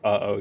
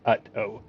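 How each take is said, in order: First: The middle sounds like a breathy H. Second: The middle sounds like a T stop. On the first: The speaker calls it wrong. "you don't say uh-oh" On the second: The speaker calls it right. "you say ut-oh"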